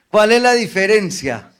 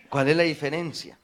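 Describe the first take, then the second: First: Louder ask. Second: Said in the usual way. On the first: Real, not acted.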